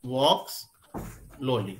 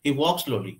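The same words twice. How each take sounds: First: Walks slowly with a pause between the two s sounds; teacher shows the wrong way, walks and slowly split apart; wrong separated take. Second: He walks slowly with the s sounds merged into one; teacher shows the right way, he walks slowly in one breath. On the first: Walks slowly said as two separate words. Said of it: "अलग-अलग distinct करके ना बोले". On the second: Walks slowly run together, no gap. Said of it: "एक ही ब्रीथ में बोल दे". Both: Shown as a demonstration.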